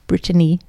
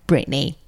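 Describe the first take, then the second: First: The name is said in a fancier accent. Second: The name is said in a plainer accent. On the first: This is the other person's way of saying it. "how you say Brittany" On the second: This is how the speaker's own group says it. "and not Brittany, like us"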